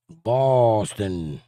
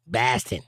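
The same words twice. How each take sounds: First: Boston stretched long with a rounded "aw" vowel; drawn-out Boston. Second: Boston said as "Bahston", attempted local accent. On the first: Streamer trying out the city's name, Boston slowly drawn out as "Bawston". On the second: Southerner attempting the local name, Boston accent "Bahston". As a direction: flatten the vowel of Boston in a Boston accent. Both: Shown as a demonstration. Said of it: "That's a hard accent to pull off".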